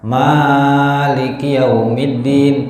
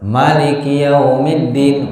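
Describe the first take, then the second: First: The vowel after the m is held long. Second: The vowel after the m is kept short. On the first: "mimnya dibaca panjang itu bacaan kita" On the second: "mimnya dibaca pen pendek"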